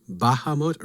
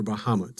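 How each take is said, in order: First: Unsure which syllable takes the accent, BAH-ha-mut; stress on first syllable. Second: The alternative accent, ba-HA-mut; stress on second syllable. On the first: Speaker asks listeners which accent is right, stress BA in Bahamut. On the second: Speaker offers listeners the other option, stress HA in Bahamut. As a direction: say Bahamut leaning on the middle syllable, HA. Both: Shown as a demonstration. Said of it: "which syllable the accent should go on".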